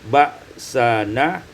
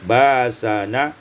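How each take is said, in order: First: A glottal stop follows the first vowel. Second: The first vowel is lengthened with no glottal stop.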